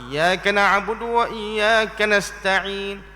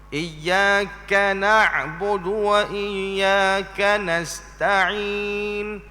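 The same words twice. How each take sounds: First: The phrase is recited quickly, rushing the kaf. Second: The phrase is recited carefully with a clear kaf. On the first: The speaker calls it wrong. "itu sebut cepat" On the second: The speaker calls it right. "sebut betul-betul kaf"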